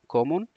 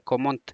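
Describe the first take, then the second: First: The final t is silent. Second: The final t is sounded. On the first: The speaker calls it right. "تی تلفظ نمیشه" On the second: The speaker calls it wrong. "نمیگین"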